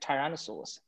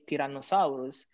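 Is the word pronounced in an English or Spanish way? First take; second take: English; Spanish. First: The word is said with English-style vowels. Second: The word is said with Spanish-style vowels. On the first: "instead of" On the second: "he basically has the Spanish pronunciation"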